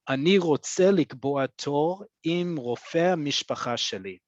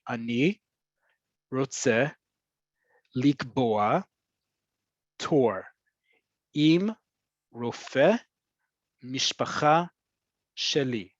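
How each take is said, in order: First: The whole sentence is said quickly in one run. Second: Each word is said separately with pauses between. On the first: "I'm going to say it quickly" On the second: "I broke it down there"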